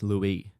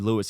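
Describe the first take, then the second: First: The name ends without an S sound. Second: The name ends with an S sound. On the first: "the S is silent and it's pronounced Louis" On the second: "it would be spelled L E W I S"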